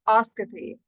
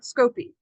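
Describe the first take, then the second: First: The suffix begins with an 'os' sound. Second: The suffix begins with a 'sco' sound. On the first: The speaker calls it right. "it is pronounced oscopy" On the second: The speaker calls it wrong. "not scopy"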